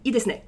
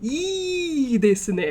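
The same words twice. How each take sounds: First: The first vowel is short. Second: The first vowel is lengthened very heavily. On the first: "I don't say" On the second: "I don't need to lean on it super hard"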